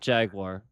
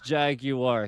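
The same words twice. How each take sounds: First: The second syllable has a W sound. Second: The second syllable has no W sound. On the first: The speaker calls it wrong. "It's not Jaguar. There's no W in that" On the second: The speaker calls it right. "It is Jaguar"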